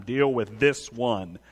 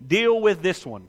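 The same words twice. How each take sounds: First: Low, slow acted command; grave, measured order; low, deliberate command. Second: Firm, slowed command in usual pitch; acted insistent order. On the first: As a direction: drop the pitch and space out each word. Repeats the Spirit's command to himself. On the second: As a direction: put it to the listener squarely and slowly. Voices the Spirit confronting the listener.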